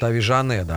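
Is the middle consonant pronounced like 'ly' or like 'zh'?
zh. The middle consonant sounds like 'zh'. This reflects regional Argentine speech. "аргентинцы говорят"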